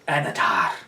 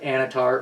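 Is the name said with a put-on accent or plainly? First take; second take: put-on accent; plainly. First: It is said with a put-on, exotic-sounding accent. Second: It is said in an ordinary, everyday accent. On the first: It feels good to say. The speaker calls it right. "I want to say it with an accent" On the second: It sounds lame. The speaker calls it wrong. "if you just say them regular"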